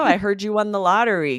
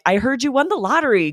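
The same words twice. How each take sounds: First: The tone is annoyed and sarcastic. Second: The tone is warm and sincerely happy. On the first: The speaker is not really happy for them. "You can hear how the tone is more annoyed" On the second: The speaker is truly happy for them. "That is the sincere way to use this"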